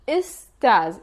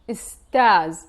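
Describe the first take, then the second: First: It starts with 'i' and ends in buzzing 'z'. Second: It starts with 'i' and ends in buzzing 'z'.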